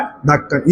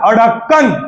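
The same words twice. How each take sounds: First: ढक्कन with a plain hard ढ at the start, said quieter; softly confirming the correct ढक्कन; correct form, softer. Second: अढक्कन said as the wrong spelling, with a dotted ढ़; teacher sounds out the incorrect अढक्कन; wrong form, mocked. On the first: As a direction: say ढक्कन cleanly as the right spelling. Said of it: "और ये क्या है?". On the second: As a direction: read अढक्कन out as the incorrect version. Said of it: "ये क्या है?". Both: Shown as a demonstration.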